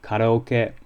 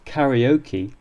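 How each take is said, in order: First: It is said with a Japanese pronunciation. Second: It is said with an English pronunciation. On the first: "the Japanese would say karaoke" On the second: "nor does karaoke lead to the raising of any eyebrows"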